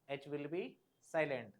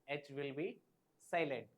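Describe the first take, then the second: No difference in how they are said.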